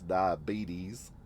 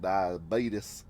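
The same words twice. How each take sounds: First: The word is said in a standard way. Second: The word is said with a country drawl. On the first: "He can't pronounce diabetes" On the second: "he pronounced it diabetes, like he's country folk"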